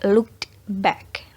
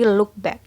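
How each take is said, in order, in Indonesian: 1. Bunyi D sebelum 'back' diucapkan. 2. Bunyi D sebelum 'back' dihilangkan. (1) "tidak looked back. Nah, itu salah" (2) "Yang benar adalah look back"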